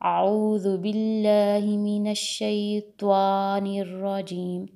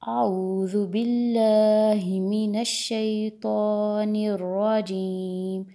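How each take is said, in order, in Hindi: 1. t इतना मोटा है कि उसके बाद w की ध्वनि आती है। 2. t मोटा है, पर उसके बाद w की ध्वनि नहीं आती। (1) "तो को इतना मोटा कर दिया कि वाव की साउंड आ गई" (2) "इसकी सही प्रोनाउंसिएशन क्या होगी?"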